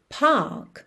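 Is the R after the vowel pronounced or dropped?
dropped. The R is dropped, British style.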